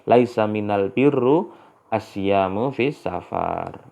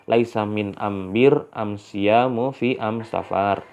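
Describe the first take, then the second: First: The article is pronounced with an l sound. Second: The article is pronounced with an m sound. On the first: This is the standard form of the phrase. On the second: This is how a southern Arabian dialect says it.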